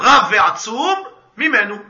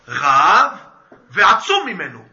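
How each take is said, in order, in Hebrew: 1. יש הפסקה מיד אחרי המילה ve'atzum. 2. יש הפסקה מיד אחרי המילה rav. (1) "טרחה זה טעם מפסיק. אז צריך לקרוא רב ועצום ממנו" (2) "ככה קוראים, הוא רב, אבל הוא רק עצום ממנו"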